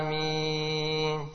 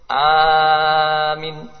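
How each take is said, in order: First: Both vowels are held to a moderate length. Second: The first vowel is long, the final vowel short. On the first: The speaker calls it right. "Yang benar" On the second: The speaker calls it wrong. "Memanjangkan hamzah dan memendekkan mim"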